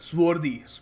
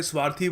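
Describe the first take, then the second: First: Swarthy said "SWOR-dhee", with an "or" vowel; correct pronunciation. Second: स्वार्थी with a long "aa" and aspirated "thee"; mispronounced swarthy. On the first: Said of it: "इसको सही तरीके से बोलने का तरीका है". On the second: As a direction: say it wrongly as "SVAAR-thee", like the Hindi स्वार्थी. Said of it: "कई लोग गलती से स्वार्थी बोल देते हैं". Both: Shown as a demonstration.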